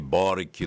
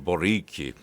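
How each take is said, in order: First: The stress is on the first syllable. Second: The stress is on the last syllable. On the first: The speaker calls it wrong. "eu falei Boric" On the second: The speaker calls it right. "é sempre Rick"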